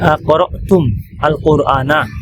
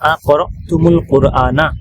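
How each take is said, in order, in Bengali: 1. শব্দগুলো আলাদা করে পড়া হয়, 'al' রেখে। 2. শব্দগুলো একটি যুক্তকারী 'u' ধ্বনি দিয়ে জোড়া লাগিয়ে পড়া হয়। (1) "মিমে সুকুন লামে সুকুন" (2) "মিলিয়ে পড়লে"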